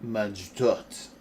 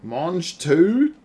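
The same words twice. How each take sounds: First: Best amateur French accent, pitched lower; careful French pronunciation attempt. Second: Mange tout? in loud disbelief; incredulous. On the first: Shown as a demonstration. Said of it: "that's my best French". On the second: Real, not acted. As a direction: Mange tout? rising, louder, shocked. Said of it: "you gotta be fucking kidding me".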